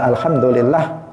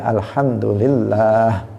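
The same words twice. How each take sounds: First: The middle 'lah' vowel is said short. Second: The middle 'lah' vowel is held long. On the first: The speaker calls it wrong. "Bukan alhamdulillah" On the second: The speaker calls it right. "Panjang lafzul jalalahnya di tengah itu panjang"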